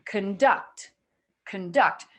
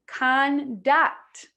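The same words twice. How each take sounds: First: "conduct" with "con" shrunk to a quick "kn", stress on "duct"; reduced first syllable. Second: "conduct" with a full, clear "ah" in "con"; unreduced first syllable. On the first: Teacher giving the correct version, "con" reduced in "conduct". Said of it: "I'm saying". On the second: Teacher showing students what not to say, "con" unreduced in "conduct". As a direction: say "conduct" slowly with both vowels full. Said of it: "So I'm not saying". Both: Shown as a demonstration.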